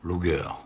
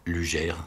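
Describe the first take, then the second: First: The name is pronounced with German sounds. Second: The name is pronounced with French sounds. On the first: The speaker calls it right. "Je pense que là j'ai bon" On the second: The speaker calls it wrong. "je disais avant"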